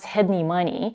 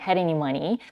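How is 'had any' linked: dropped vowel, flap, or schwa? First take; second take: dropped vowel; flap. First: The first vowel of any is dropped. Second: The d is flapped between the two vowels. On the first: "completely dropping that first sound" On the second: "Many speakers actually would flap the T here"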